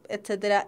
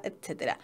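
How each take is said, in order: First: Said in the usual way. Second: Fading whisper. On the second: Real, not acted. Teacher trailing off at the end of a list, whispered. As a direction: drop to a breathy trailing whisper.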